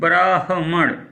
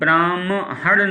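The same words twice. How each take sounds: First: The h sound comes before the m sound. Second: The m sound comes before the h sound. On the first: The speaker calls it right. "तो पहले आधा हा आएगा फिर माँ आएगा" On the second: The speaker calls it wrong. "ब्राह्मण नहीं"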